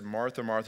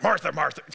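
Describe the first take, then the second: First: It is said in a gentle, loving tone. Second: It is said in an angry, impatient tone.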